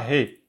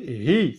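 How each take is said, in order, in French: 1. La syllabe se termine par une voyelle courte 'eh'. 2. La syllabe se termine par une voyelle courte 'ee'. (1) "c'est pas he" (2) "la kasra, c'est hi"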